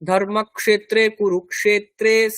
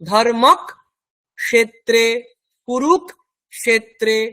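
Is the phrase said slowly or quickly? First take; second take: quickly; slowly. First: It is said quickly as one flowing phrase. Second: It is said slowly, broken into parts. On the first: "তখন এইটা তাড়াতাড়ি হয়ে যাবে।" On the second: "এইবারে এত আস্তে আস্তে বলবেন"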